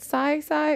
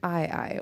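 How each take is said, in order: First: The word begins with an s sound. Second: The word begins with a vowel sound. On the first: "is it Psy Psy" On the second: "or is it I I?"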